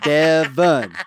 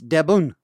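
First: The name is said with a v sound. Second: The name is said with a b sound. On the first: This is the original form of the name. The speaker calls it right. "my name is not Debun, it's Devon" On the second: This is how the name is said in Japanese. The speaker calls it wrong. "In Japanese, it's Debun"

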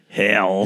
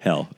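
First: The word ends with a long, drawn-out L sound. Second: The word ends with a short, ordinary L sound. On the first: This copies the other person's way of saying it. "like there's four L's" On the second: This is the usual way to say it. "It's not hell"

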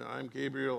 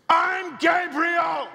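First: It is read plainly, without drama. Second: It is said in a booming, imposing voice.

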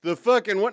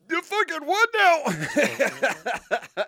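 First: It is said in his normal voice. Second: It is said in a put-on character voice.

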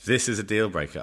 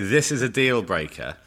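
First: It is said with a put-on French accent. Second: It is said in the speaker's ordinary accent.

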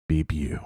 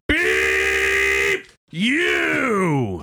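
First: It is said softly, without intensity. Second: It is said loudly and intensely.

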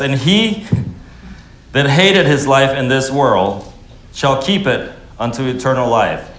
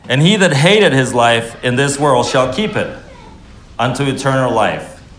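First: It is read slowly. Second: It is read fast.

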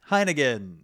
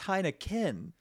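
First: The word is said with a G sound. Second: The word is said with a K sound. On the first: The speaker calls it wrong. "you do say it with a G. Heineken is what you're saying" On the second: The speaker calls it right. "And it's not. It's Heineken"

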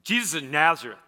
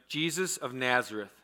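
First: It is said with emphasis, like a swear word. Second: It is said in a plain, neutral tone.

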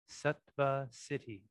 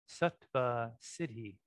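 Both takes have the same delivery.

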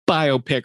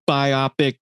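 First: It is said as bio plus pic. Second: It is said like biopsy, stressing the second syllable. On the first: It means a film about a real person's life. The speaker calls it right. "It's a biographical picture" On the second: It sounds like a medical sample taken from the body. The speaker calls it wrong. "It's not a biopic that you get removed from your back"

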